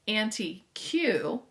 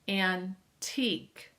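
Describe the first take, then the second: First: It is said as three syllables, 'Auntie Q'. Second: It is said as two syllables, 'antique'. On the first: The speaker calls it wrong. "you're not pronouncing it correctly" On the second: The speaker calls it right. "you should say antique"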